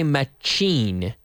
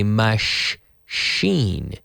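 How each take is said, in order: First: The middle consonant is a 'ch' sound. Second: The middle consonant is a soft 'sh' sound. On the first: The speaker calls it wrong. "we don't say machine" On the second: The speaker calls it right. "we say machine. So imagine you're telling someone to be quiet. Shh"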